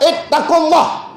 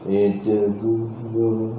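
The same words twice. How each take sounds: First: It is said loudly and forcefully. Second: It is said weakly and slowly.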